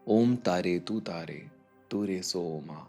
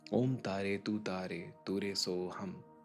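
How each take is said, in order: First: The final word is said as soma. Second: The final word is said as soham. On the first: This form is used on plateaus beyond Tibet. "वहाँ सोमा भी कहा जाता है" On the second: This form is also used in another region. "स्वाहा यहाँ इस तरह से भी बोला जाता है"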